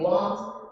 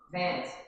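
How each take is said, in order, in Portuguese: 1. A palavra começa com som de W. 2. A palavra começa com som de V.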